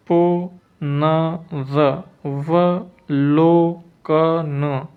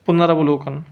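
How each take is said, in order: First: पुनरवलोकन very slowly, पु-न-र-व-लो-क-न; long, separated syllables in पुनरवलोकन; syllable-by-syllable dictation. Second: Said in the usual way. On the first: Shown as a demonstration. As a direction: leave a gap after each syllable of पुनरवलोकन. Teacher dictates spelling syllable by syllable.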